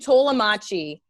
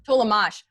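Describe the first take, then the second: First: The name is Italianized with an added final vowel. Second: The name is said plainly, ending on the consonant. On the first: This is a playful wrong version. The speaker calls it wrong. "because I'm so Italian, and I know it's wrong" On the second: This is the name's owner's own pronunciation. The speaker calls it right. "I go Tolamach"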